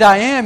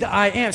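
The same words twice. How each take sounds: First: "I am" punched much louder; emphatic I am. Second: "I am" said at ordinary volume, a gentle quote; quoted I am. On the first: Pastor stressing Jesus's divine name to the congregation, forceful. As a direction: land hard on "I am" for the divine name. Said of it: "But he used". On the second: Pastor first pointing out Jesus's phrase, plainly quoting it. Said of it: "And he used". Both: Shown as a demonstration.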